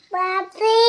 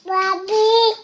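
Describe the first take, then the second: First: Calling out. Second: High sustained call, a bit stronger; calling out harder. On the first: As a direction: call out in a high, rising voice. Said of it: "ज़ोर से आवाज़ दो". (ऊँचे सुर में पुकारना) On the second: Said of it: "और ज़ोर से". (ऊँचे सुर में थोड़ा और ज़ोर से पुकारना) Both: Real, not acted.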